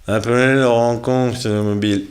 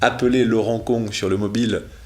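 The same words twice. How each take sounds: First: The words are spoken in a slurred, impaired-sounding voice. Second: The words are spoken clearly and normally.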